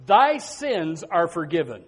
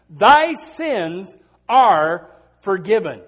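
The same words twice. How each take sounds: First: Said in the usual way. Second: "Thy sins are forgiven" drawn out slowly and louder; solemn, slow, weighty restatement; slow emphatic repeat. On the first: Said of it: "He said unto her". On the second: Shown as a demonstration.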